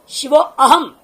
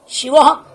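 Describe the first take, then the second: First: The 'a' of aham is clearly sounded separately. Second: The 'a' of aham is barely heard. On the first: The speaker calls it wrong. "शिवो अहम नहीं" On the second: The speaker calls it right. "वह अ खा गया बाधा और आधा बोल भी रहे हैं"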